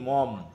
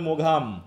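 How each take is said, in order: First: The name is said as a short form. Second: The name is read out following its spelling. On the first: The speaker calls it right. "আর উচ্চারণ করবা কি, মম" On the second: The speaker calls it wrong. "বানানের ক্ষেত্রে হবে মোঘাম নাকি"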